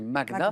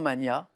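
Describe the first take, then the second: First: The g and n are pronounced as separate sounds. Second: The gn is pronounced as a single ny sound. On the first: The speaker calls it right. "on doit le prononcer comme pour Magnus. Donc c'est magna" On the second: The speaker calls it wrong. "on entend souvent mania"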